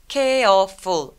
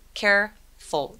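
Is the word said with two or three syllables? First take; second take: three; two. First: The word has three syllables. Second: The word has two syllables. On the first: The speaker calls it wrong. "중간에 있는 E는 소리를 내지 않아요" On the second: The speaker calls it right. "이렇게 두 개의 소리를 냅니다"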